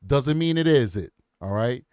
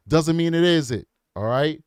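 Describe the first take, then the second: No difference in how they are said.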